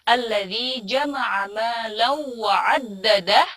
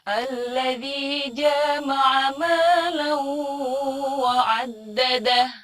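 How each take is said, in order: First: The first vowel of jama'a is short. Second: The first vowel of jama'a is long. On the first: The speaker calls it right. "itu jamaah jimnya pendek" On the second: The speaker calls it wrong. "itu panjang padahal harusnya pendek"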